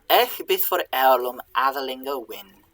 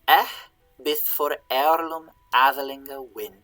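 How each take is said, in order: First: It is read at normal speed. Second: It is read slowly.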